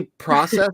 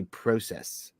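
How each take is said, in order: First: "process" with first vowel as in "pross"; process with short AH. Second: "process" with a long O; Canadian process. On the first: Shown as a demonstration. Asking about accents, "process" said PRAH-sess. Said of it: "Do you say process or process?". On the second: Retold or imitated. Imitating a Canadian teacher, "process" said PROH-sess. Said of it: "he was Canadian. He would say process".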